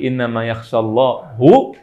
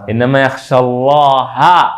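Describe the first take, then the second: First: The word Allah ends with a 'u' vowel. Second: The word Allah ends with an 'a' vowel. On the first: God is the one who fears the scholars. The speaker calls it wrong. "Kalau kita ganti innama yakhshallahu, artinya berubah" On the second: The scholars are the ones who fear God. The speaker calls it right. "jangan Allahu"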